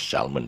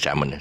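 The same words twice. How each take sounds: First: The L sound is pronounced. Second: The L sound is silent. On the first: The speaker calls it wrong. "lots lots of people pronounce this this fish as salmon" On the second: The speaker calls it right. "the real pronunciation is salmon"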